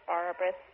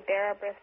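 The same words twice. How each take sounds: First: "Bara" said as PAR-a with an open ah vowel, "Brith" with th; second pronunciation. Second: First guess at "Bara Brith" with an air vowel; trying a pronunciation. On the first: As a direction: try "Bara" as BAR-a instead. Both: Shown as a demonstration. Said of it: "Who knows how to pronounce Welsh?".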